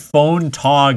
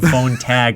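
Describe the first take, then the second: First: The second word has an 'ah' vowel, like cot. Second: The second word has an 'a' vowel, like cat. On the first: The speaker calls it wrong. "I just said phone tog instead of phone tag" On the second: The speaker calls it right. "instead of phone tag"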